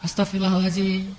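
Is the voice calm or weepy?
calm. It is said in a calm, sincere voice. The person sincerely recognizes the sin. The speaker calls it right. "Gak usah nangis, tapi insaf"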